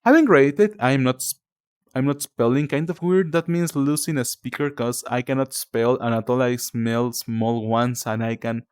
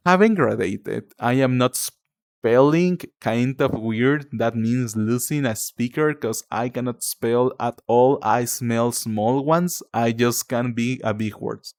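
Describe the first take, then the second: First: Said in the usual way. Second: Much slower, word-by-word reading; slow, deliberate reading. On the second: Real, not acted. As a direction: read it out slowly, puzzling through each word. Rereads puzzling comment word by word.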